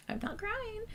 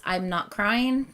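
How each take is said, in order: First: Very high, soft and thin, holding back tears; tearful. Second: Said in the usual way. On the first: Real, not acted. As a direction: voice rising as the tears come.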